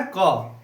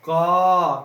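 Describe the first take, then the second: First: Said in the usual way. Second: क held long so the अ rings out; loud, sustained क with a long अ tail; drawn-out letter sound. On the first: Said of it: "क्या बोलना है". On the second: Shown as a demonstration. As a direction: stretch क until its trailing अ is heard. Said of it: "क्या आ रहा है पीछे से".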